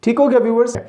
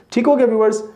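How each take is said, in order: Both takes have the same delivery.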